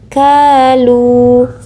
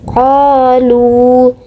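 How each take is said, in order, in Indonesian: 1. Diawali dengan bunyi k biasa di bagian depan. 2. Diawali dengan bunyi q dalam di belakang tenggorokan. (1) "bukan kalu" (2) "yang tepat adalah bagian kanan, qalu"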